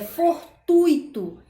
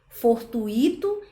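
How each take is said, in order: First: The stress falls on the U vowel. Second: The stress falls on the I vowel. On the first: The speaker calls it right. "a sílaba tônica é o U" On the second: The speaker calls it wrong. "como a gente costuma colocar no I"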